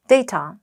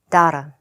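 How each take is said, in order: First: The word is said in a British accent. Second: The word is said in an Australian accent. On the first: "영국 언니는 데이터, 데이터, 데이터 이러면 돼요" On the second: "호주 오빠는요. data, data, data, data 막 이래요"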